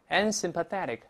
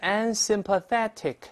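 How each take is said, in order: First: Said quickly with the t voiced like d. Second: Said slowly with a clear t sound. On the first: "但读快之后这个tick 会轻轻浊化成dick 这个声音" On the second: "读慢了以后是unsympathetic"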